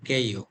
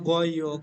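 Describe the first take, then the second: First: The syllable begins with a tense k sound. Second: The syllable begins with a soft g sound. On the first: The speaker calls it right. "Listening ও বলবে কেইও কেইও" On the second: The speaker calls it wrong. "বলবে না গইও"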